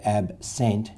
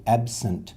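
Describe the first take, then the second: First: Absent with a clear full second vowel, sent; the wrong way, absENT with full vowel. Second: Absent with the second vowel reduced, absuhnt; weak vowel absent. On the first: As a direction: say absent with the E fully sounded. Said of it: "we don't really say absent". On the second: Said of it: "we say absent". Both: Shown as a demonstration.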